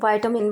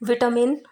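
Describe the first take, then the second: First: It is said in an American accent. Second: It is said in a British accent. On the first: "American English में विटामिन" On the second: "British English में विटामिन"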